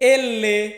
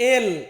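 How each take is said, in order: First: The letter name is said as two syllables. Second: The letter name is said as one syllable. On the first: This is the Italian name of the letter. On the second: This is the usual English name of the letter.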